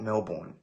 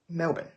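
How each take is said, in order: First: The second syllable sounds like "born". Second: The second syllable sounds like "bin". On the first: The speaker calls it wrong. "it's not Melbourne" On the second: The speaker calls it right. "Just pronounce it like bin"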